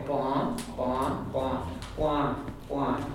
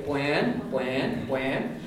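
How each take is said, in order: First: Bwán said straight, bán, no w glide; southern bwán, no glide. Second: Bwán with a clear glide, bw-an; gliding bwán. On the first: Teacher showing the southern form without glide. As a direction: say bwán flat with no glide at all. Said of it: "there won't be a glide at all". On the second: Teacher showing the northern glide clearly. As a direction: say bwán sliding from w into the vowel. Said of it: "you'll hear the glide very clearly". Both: Shown as a demonstration.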